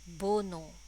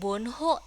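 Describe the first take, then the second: First: The h sound in the middle is dropped. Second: The h sound in the middle is pronounced. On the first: The speaker calls it right. "tapi bono. Bono ya, jadi hanya hilang" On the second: The speaker calls it wrong. "bukan bonho ya"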